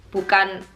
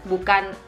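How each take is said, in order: The two takes are said the same way.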